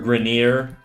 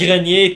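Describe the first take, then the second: First: The name is pronounced the English way. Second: The name is pronounced the French way.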